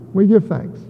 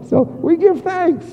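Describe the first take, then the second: First: Said in the usual way. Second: High, slow stress on give; emphatic give thanks. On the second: Shown as a demonstration. Preacher urging the congregation to give thanks, high and slow on "give". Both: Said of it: "In everything give thanks".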